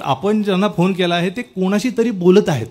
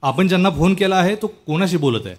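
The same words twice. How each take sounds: First: "कोणाशी तरी" said as a statement, slightly higher voice; corrected phone announcement. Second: Lightly mimicked operator message, no question in it; mock phone recording, neither question nor exclamation; recorded phone announcement. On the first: Shown as a demonstration. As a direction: demonstrate the fixed message, "तरी" clearly placed after "कोणाशी". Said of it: "असं पाहिजे ते". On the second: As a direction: recite it like an automated phone lady. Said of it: "आता त्यात उद्गार पण नाही, प्रश्न पण नाही".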